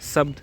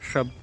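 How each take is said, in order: First: The word begins with an s sound. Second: The word begins with an sh sound. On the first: The speaker calls it wrong. "शब्द गलत होगा" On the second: The speaker calls it right. "शब्द बोलते हैं ऐसे"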